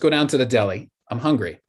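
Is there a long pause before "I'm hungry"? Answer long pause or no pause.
no pause. The two ideas run together without a pause. Being hungry is the reason for going. The speaker calls it right. "I'm hungry relates to let's go down to the deli"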